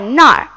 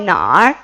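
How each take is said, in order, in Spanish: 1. La palabra se dice con un tono que no es el tercero. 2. La palabra se dice con el tercer tono. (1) "Ta zai nar es que él está allí" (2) "El tercer tono en nar hace que tengamos el pronombre interrogativo. Ta zai nar es una pregunta"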